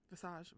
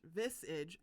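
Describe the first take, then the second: First: Visage misread as "vuh-SAHZH". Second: Visage said properly "VIZ-ij"; corrected visage. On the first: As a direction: say visage stressing the end, soft zh. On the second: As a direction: land on visage with a hard j ending. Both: Shown as a demonstration.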